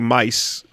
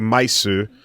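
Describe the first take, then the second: First: Said as one English syllable. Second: Said in Japanese style with an added final vowel. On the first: The speaker calls it wrong. "we don't say mice" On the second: The speaker calls it right. "we say maisu"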